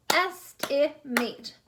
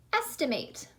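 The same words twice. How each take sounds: First: "Estimate" slowly broken into three separate parts; split into syllables. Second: Said in the usual way. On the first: Shown as a demonstration. Teacher showing second graders the syllables, "Estimate" split apart. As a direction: say "Estimate" as es, ti, mate with gaps. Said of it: "Vowel sounds in each part". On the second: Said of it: "how many syllables are in the word".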